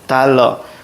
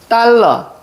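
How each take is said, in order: First: The first consonant is plain and soft. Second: The first consonant is tense and hard. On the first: This matches the official spelling. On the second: This is how people actually pronounce it.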